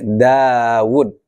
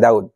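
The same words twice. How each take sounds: First: The name is pronounced with Arabic sounds. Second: The name is pronounced with Indonesian sounds. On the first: "Kalau bahasa Arabnya gini" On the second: "di Indonesia jadi Daud"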